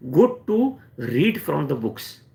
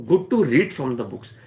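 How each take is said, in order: First: Each word drawn out slowly for weight; slow emphatic take. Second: Said in the usual way. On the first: Shown as a demonstration. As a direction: say it slowly, letting it sink in.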